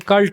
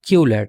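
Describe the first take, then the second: First: The word is said as one short syllable. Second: The word is said with two syllables. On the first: The speaker calls it wrong. "अक्सर लोग इसे कल्ट बोलते हैं, लेकिन कल्ट ठीक pronunciation नहीं है" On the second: The speaker calls it right. "सो ये क्यूलेट है"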